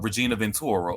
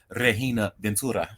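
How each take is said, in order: First: The name is said in a plain accent. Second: The name is said in a Spanish accent.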